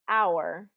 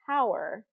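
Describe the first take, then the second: First: The starting H sound is silent. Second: The starting H sound is heard. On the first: The speaker calls it right. "very common words that have a silent H" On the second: The speaker calls it wrong. "you wouldn't say that"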